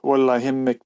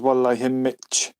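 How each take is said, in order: First: The last word ends with a k sound. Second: The last word ends with a ch sound.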